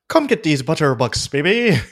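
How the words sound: It is said in an Irish accent.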